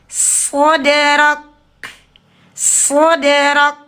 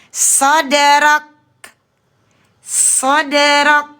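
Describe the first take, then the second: Both takes have the same delivery.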